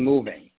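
The pitch falls at the end of the word. The speaker sounds confident. The speaker calls it right. "finish your sentences on a downswing"

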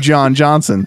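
The name is said with American English vowels. "in America it would be John Johnson"

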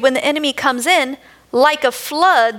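There is a pause after 'in'.

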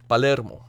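The name is said with Spanish pronunciation. The speaker calls it right. "Palermo is how you pronounce it in Espanol"

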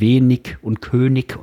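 It is said in a studied, overcareful way.

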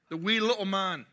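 It is said in a Scottish accent.

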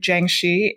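It is said the way Mandarin speakers in Taiwan say it. "pronounced, I believe, Jiangxi in Taiwan"

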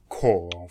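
The word is said in a redneck way, like coral. "I'll say it all redneck, like coral"

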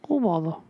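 It is a calm Winnie the Pooh voice.

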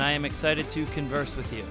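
It is said in a flat, unexcited tone.

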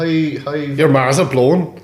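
It is said in a strong Derry accent. The speaker calls it right. "just give it the full dairy"

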